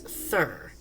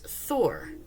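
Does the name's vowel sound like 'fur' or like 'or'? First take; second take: fur; or. First: The vowel sounds like the one in 'fur'. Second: The vowel sounds like the one in 'or'. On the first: The speaker calls it wrong. "It's Thur" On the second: The speaker calls it right. "she doesn't pronounce it as Thor"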